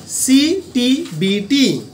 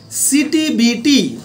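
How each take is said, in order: First: Very slow, spaced-out CTBT; drawn-out CTBT for note-takers; slow dictation. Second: Said in the usual way. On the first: Shown as a demonstration. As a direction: say CTBT letter by letter, stretching each one. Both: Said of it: "আমি আস্তে আস্তে বলছি".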